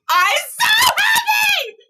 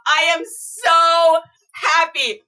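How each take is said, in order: First: Overjoyed squeal. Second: Said in the usual way. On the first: Real, not acted. Thanking her friend for the gift, overjoyed high cry. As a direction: voice jumps up into a joyful cry. Said twice, second breaks.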